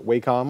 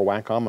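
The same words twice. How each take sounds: First: First syllable of Wacom rhymes with "day"; Wacom as WAY-com. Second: First syllable of Wacom as in "wax"; Wacom as WACK-com. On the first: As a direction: say Wacom with a long A, like "way". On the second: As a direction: say Wacom with a short A, like "whack". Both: Shown as a demonstration. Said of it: "I'm not sure how they pronounce it".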